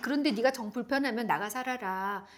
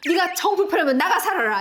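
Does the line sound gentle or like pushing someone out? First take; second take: gentle; pushing out. First: It sounds gentle and caring. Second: It sounds like pushing someone out.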